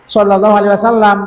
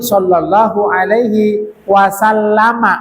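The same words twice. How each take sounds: First: The final m is closed with no vowel. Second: The final m is followed by a short a. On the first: The speaker calls it wrong. "Jangan cuma sallallahu alaihi wasallam" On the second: The speaker calls it right. "Ada fathahnya mimnya"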